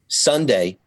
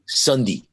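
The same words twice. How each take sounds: First: It is said in a North Jersey accent. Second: It is said in a South Jersey accent.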